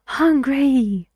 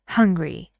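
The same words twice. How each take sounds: First: Both syllables are stressed equally strongly. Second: Only the first syllable is stressed. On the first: It sounds like two separate words. The speaker calls it wrong. "اگر بیام هر دو تا سیلابل رو با هم stressed بگم" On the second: It sounds like one word. The speaker calls it right. "It's hungry"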